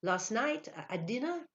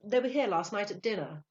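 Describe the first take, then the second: First: Halting, rising question; stammering, baffled echo; puzzled recollection. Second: Confident, higher, louder statement; breezy explanation to a waiter; casual enquiry. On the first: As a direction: repeat it blankly, trying to think. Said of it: "He tried to think". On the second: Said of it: "he inquired casually". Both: A narrator's reading.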